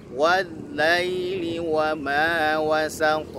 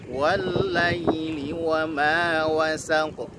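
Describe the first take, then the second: The two takes are said the same way.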